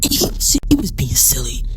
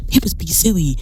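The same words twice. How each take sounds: First: Whispered and softer; softer whispered verdict; hushed aside. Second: Said in the usual way. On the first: Real, not acted. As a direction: drop to a whisper. Hushed repeat.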